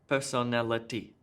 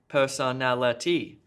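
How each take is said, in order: First: All syllables get equal stress. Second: The stress is heavily exaggerated and overdone. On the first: "let me just try to do it with even stress on each of the syllables" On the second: "too much stress"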